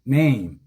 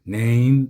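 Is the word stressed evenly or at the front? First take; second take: at the front; evenly. First: The word is said with strong stress at the front. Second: The word is said without a strong front stress. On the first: The speaker calls it right. "제일 앞에 스트레스가 간다" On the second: The speaker calls it wrong. "이게 아니고요"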